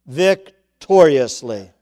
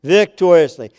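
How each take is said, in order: First: Victoriously stretched very slowly, falling at the end; victoriously spoken slowly and weightily; drawn out. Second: Victoriously proclaimed with a strong emphatic fall; stress on Victoriously. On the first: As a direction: let victoriously unroll slowly as the close of the verse. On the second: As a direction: Victoriously hit louder and quicker, falling firmly. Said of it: "He brings you out victoriously". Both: Shown as a demonstration.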